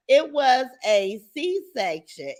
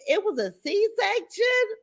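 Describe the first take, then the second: First: Said in the usual way. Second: "C-section" shot up much higher, slow, in disbelief; wait, what, a C-section; slow, high, stunned echo of "It was a C-section?"; surprised question. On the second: Real, not acted.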